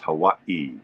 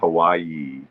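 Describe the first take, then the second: First: A glottal stop splits the middle syllables. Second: A y sound joins the middle syllables. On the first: The speaker calls it right. "it indicates a glottal stop in the pronunciation" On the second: The speaker calls it wrong. "So it's not Hawaii. There's no Y"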